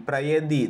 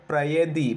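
No difference in how they are said.

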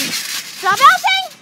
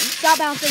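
First: High, slow, drawn-out yell; loud yell. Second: Said in the usual way. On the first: Real, not acted. Yelled call to stop.

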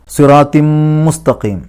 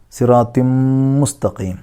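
First: Slow, louder chant of സിറാത്തിം മുസ്തഖീം; Quran recitation. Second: Said in the usual way. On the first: Shown as a demonstration. Teacher chants the phrase before explaining. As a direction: sing it with the nun merged into mim. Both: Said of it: "മീമിലേക്ക് ലയിപ്പിക്കുക".

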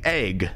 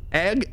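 First: "egg" said like "ayg"; "egg" rhyming with vague; own pronunciation. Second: "egg" with the short e of "edge"; short-vowel "egg"; short-e pronunciation. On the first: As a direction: answer with "egg" on a long ay. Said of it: "I like egg". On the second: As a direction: compare by saying "egg" with a short e. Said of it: "wait, is it e-, egg". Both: Shown as a demonstration.

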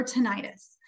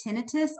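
First: "tinnitus" as tih-NYE-tus, stress on middle syllable; alternative pronunciation. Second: "tinnitus" as TIN-ih-tus, stress on first syllable; first pronunciation. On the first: Audiologist offering audience other option, "tinnitus" as tih-NYE-tus. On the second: Audiologist offering audience one option, "tinnitus" as TIN-ih-tus. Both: Shown as a demonstration. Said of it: "How do you pronounce this word".

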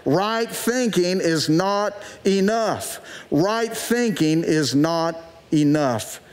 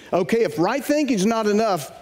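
First: Slow, muffled behind a hand; hand over mouth. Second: Said in the usual way. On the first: Shown as a demonstration. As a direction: say it slowly through your fingers. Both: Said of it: "put your hand over your mouth like this and say that".

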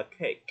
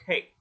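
First: "cake" with a popped K; released final K. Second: "cake" stopped on a held K; unreleased final K. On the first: Teacher showing what to avoid, "cake" with K released. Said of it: "Không cần phải bật ra cake như thế". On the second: Teacher showing the easier ending, "cake" with K held back. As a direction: block the K of "cake" without popping it. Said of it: "Ở đấy thôi, chặn ở đó thôi". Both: Shown as a demonstration.

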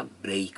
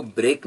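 First: "ब्रेक" as BREYK, vowel gliding to ee; drawn-out ei in "ब्रेक"; correct word break. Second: "ब्रेक" with a plain unglided e; steady single vowel in "ब्रेक"; wrong break vowel. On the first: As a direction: say "ब्रेक" with a long ei glide. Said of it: "ब्रेक होता है". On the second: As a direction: say "ब्रेक" as flat brek, no glide. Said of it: "वो ब्रेक नहीं होता". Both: Shown as a demonstration.

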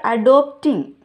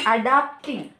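First: "adopting" said with o, a-DOP-ting, by mistake; "adopting" slipped out instead of adapting; mispronounced word. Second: "adapting" said with a, a-DAP-ting, as correction; "adapting" fixed with clear a sound; corrected word. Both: Real, not acted. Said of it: "I mean, adapting".

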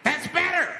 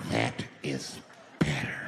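First: High, pushed-up approval; loud approval. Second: Very low, drawn-out "That is ... better"; low approval. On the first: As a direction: bark "better" high, in an acted voice. Acted man pleased crowd obeys. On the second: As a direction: drop deep and pause before "better". Same words again, dropped low. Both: Retold or imitated.

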